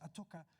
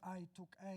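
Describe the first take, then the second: First: The words are reduced and run together. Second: Each word is said fully and clearly. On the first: "es a toca" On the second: "no es I took a"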